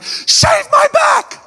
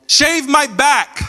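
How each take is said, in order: First: Very high, squeaky slow shout; Fo's voice. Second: High, drawn-out yelled demand; Fo's voice. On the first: Big brother right in my face, absurdly high shouted demand. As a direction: screech it way up high, stretching each word. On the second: Brother calling down from upstairs, high mock yell. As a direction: imitate an angry brother, pitched well up and slow. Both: Retold or imitated. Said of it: "that's Fo's voice".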